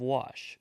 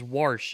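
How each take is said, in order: First: It is said with a standard pronunciation. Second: It is said with a Southern pronunciation. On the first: It is the usual way most people say it. "instead of wash" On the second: It is how a relative from the South says it. "my dad says wash ... I think that's a very southern thing"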